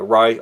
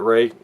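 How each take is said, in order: First: The name's vowel sounds like 'eye'. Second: The name's vowel sounds like 'day'. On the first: The speaker calls it right. "Rai, I should say" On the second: The speaker calls it wrong. "I thought it was Ray"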